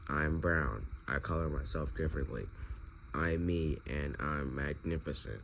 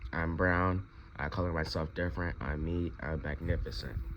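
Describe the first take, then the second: First: It is said at a normal, softer volume. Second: It is said noticeably louder.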